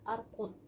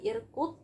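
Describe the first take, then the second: First: The word begins with an a vowel. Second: The word begins with an i vowel. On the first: "bukan arkud" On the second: "bukan irkud"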